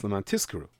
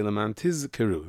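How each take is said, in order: First: "Tizkeru" with the Z turned into S, as tiskeru; said quickly. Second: "Tizkeru" with a held, voiced Z before the K; clear Zayin. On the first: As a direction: let the Zayin vanish in "Leman Tizkeru". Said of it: "If you say it quickly". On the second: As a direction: buzz the Z in "Leman Tizkeru". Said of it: "You don't hear the Zayin". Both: Shown as a demonstration.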